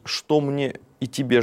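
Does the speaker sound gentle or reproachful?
gentle. It is said in a gentle, willing tone. The speaker is ready to do what is needed. The speaker calls it right. "здесь несколько иной тон мы можем увидеть"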